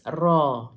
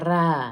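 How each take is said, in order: First: The r is thick and heavy. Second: The r is thin and light. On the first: The speaker calls it right. "ra tu kita baca tebal sebab ra baris atas" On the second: The speaker calls it wrong. "bukan ra"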